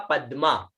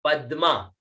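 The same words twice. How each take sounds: The two takes are said the same way.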